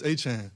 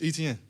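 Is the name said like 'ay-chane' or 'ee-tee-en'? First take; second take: ay-chane; ee-tee-en. First: The name sounds like 'ay-chane', two syllables. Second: The name sounds like 'ee-tee-en', three syllables. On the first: This is the family's original pronunciation. "so it'd be like A C H A N E" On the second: This is the name read as it is spelled. "how you see it is how you say it"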